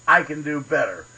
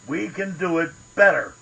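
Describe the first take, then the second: First: "I" hit hard, rest falling away; stress on I. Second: "better" stressed, long falling tune. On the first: Ranting at politicians, stress on "I". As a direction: lean on "I" as a challenge. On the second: Ranting at politicians, stress on "better". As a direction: land the weight on "better". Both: Acted.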